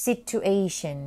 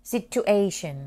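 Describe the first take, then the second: No difference in how they are said.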